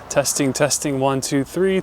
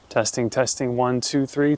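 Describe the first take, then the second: First: Background noise is heard without the denoiser. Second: Background noise is removed by the denoiser.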